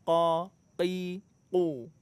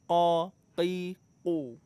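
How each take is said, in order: No difference in how they are said.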